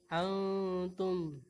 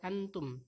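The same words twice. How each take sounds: First: The n is hidden with a lengthened nasal hum. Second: The n is plain, with no nasal hum. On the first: The speaker calls it right. "tapi antum" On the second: The speaker calls it wrong. "bukan sekedar antum"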